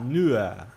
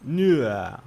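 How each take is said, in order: First: The final R is soft, almost a vowel. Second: The same.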